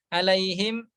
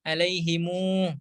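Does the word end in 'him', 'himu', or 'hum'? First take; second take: him; himu. First: The word ends in him with no final vowel. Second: The word ends in himu with an added u. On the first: This is the reading of most reciters. "dibaca oleh kebanyakan imam" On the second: This is the reading with the final m linked to a vowel. "dengan silah mim jamak"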